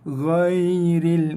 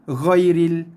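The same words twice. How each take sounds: First: The 'ai' sound is said soft and gentle. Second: The 'ai' sound is said hard and quick. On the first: The speaker calls it right. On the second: The speaker calls it wrong.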